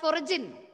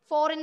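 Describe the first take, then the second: First: The word is said with an added middle syllable. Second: The word is said with two syllables. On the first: The speaker calls it wrong. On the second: The speaker calls it right.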